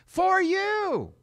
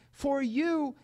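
First: "For you!" shouted high with a sharp fall; preacher's cry of "For you!"; emphatic for you. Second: Said in the usual way. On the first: Shown as a demonstration. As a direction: throw "For you!" out loud and high. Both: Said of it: "you gotta understand".

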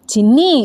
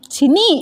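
First: Name called with a rising end; protesting call. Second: Much higher, sharply rising name; more urgent call. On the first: Friend being playfully hit calls her name, protesting. First call as she hits him. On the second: Friend being playfully hit calls her name, urgent. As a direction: plead with her to stop. Repeats call as she hits him. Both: Acted.

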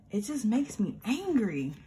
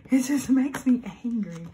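First: Said in the usual way. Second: Half-laughing, louder angry restatement; louder angry repeat. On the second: Real, not acted. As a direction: repeat it louder, with real annoyance.

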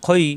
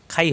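First: খই with a rounded, heavy opening vowel; thick, back-of-mouth খই. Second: খাই with an open a vowel; thinned-out খাই; mistaken thin vowel. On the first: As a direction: say খই full, with an o-like vowel. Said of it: "খাই হবে না, খই". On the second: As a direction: show the error, খাই with a light a. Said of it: "খাই হবে না". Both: Shown as a demonstration.

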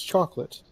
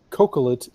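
First: Chocolate with a "ch" at the start; standard pronunciation. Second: Cocolet with a hard K, like cocoa; deliberate mispronunciation. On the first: Contrasting it with the cocoa plant, chocolate with usual CH. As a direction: say chocolate as CHOK-lit. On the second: Arguing from the cocoa plant, cocolet said with hard K. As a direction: say cocolet as KOH-kuh-let. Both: Shown as a demonstration. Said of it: "it's chocolate".

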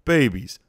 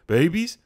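First: BABIES falling, loud, as a settled answer; mock confused statement. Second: BABIES rising sharply, loud and questioning; mock confused question. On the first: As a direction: mimic a forgetful man deciding "Babies", tune dropping. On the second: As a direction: mimic a forgetful man asking "Babies?", pitched up. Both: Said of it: "Rudy can barely remember what happened".

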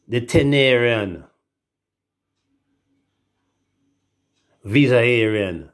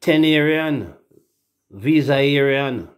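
First: Tenerian and Visayarian drawn out slowly, syllable by syllable; spelling out an unfamiliar word; slow careful reading. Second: Tenerian said higher and louder, Visayarian drawn out slowly; quick confident reading. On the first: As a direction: sound out Tenerian, Visayarian deliberately. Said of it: "I'm gonna see this word and tell me". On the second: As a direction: read Tenerian, Visayarian out like you finally got it. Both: Shown as a demonstration.

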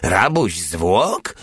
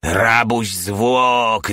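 First: Slow, drawn-out question, rising at the end; indifferent echo. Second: Very slow, stretched-out exclamation, falling at the end; yelled accusation. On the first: Porta echoing Hajde's accusation, indifferent question. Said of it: "powtórzył obojętnie Porta". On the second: Hajde accusing Porta with his pliers, yelled accusation. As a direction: drag out the accusation as a mild yell. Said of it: "darł się Hajde". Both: A narrator's reading.

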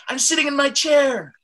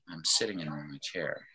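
First: Shouted excitement, very high and loud; excited. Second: Low, very soft, listless; apathetic. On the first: Teacher contrasting two emotions for the class, excited. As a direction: shoot way up in pitch, thrilled. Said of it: "I was excited". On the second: Teacher contrasting two emotions for the class, apathetic. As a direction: let all the energy drop out, barely caring. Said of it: "might be feeling apathetic". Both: Shown as a demonstration.

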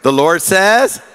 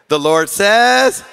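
First: Loud congregation response; call and response. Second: Slow and emphatic; slow emphatic repeat. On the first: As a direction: repeat it out loud. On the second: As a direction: draw it out slowly. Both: Shown as a demonstration. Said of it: "Say with".

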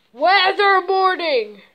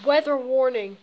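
First: Louder, slower, dramatic alarm; loud announcement. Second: Said in the usual way. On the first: Shown as a demonstration. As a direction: proclaim it like a siren warning. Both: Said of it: "Let me tell you something".

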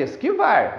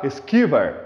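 First: Esquivar stressed on the last syllable, es-qui-VAR; normal final stress. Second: Esquivar wrongly stressed ES-QUI-var, last syllable weak; stress on first syllables. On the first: Teacher showing students the normal reading, esquivar stressed on VAR. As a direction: land firmly on VAR in esquivar. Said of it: "se falar normalmente". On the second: Teacher showing students a wrong reading, esquivar stressed before the last syllable. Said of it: "Só se você falar esquivar". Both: Shown as a demonstration.

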